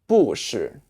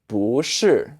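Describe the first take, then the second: First: The syllable 不 has a falling tone. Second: The syllable 不 has a rising tone. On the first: The speaker calls it wrong. "as opposed to 不是, which is a little bit weird" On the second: The speaker calls it right. "it's a rising tone, it's a second tone... It makes it easier to say"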